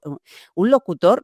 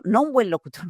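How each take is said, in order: First: Un, un locutor, with locutor set apart and louder; stress on locutor. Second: No un buen locutor, with buen high and falling; stress on buen. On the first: Correcting herself to trainee announcers, loud stress on locutor. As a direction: lean on locutor, not on buen. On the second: Telling trainee announcers what counts, stress on buen. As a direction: hit buen to reject it. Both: Shown as a demonstration.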